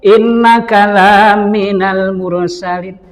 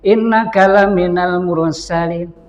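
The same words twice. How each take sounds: First: The vowel of 'la' is drawn out long. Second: The vowel of 'la' is short. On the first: You are not a messenger. The speaker calls it wrong. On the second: You are truly one of the messengers. The speaker calls it right.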